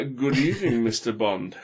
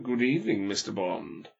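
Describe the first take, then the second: First: Mock villain greeting in a Yorkshire accent. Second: Silky villain. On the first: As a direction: put on Yorkshire for a comic villain. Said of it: "set in a Yorkshire accent". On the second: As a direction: deliver a smooth villain's greeting, falling away. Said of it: "he's got to sound silky smooth". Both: Shown as a demonstration.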